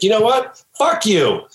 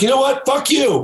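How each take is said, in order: First: Raised, clipped comeback, a little higher; retold angry retort. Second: Much higher, yelled comeback; shouted retort. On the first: Kim curses at the financial backer, mock anger. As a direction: throw the insult back sharply. Kim Arnold cursing at Larry. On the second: Retold or imitated. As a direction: top her insult with a full yell. Larry cursing back, topping her.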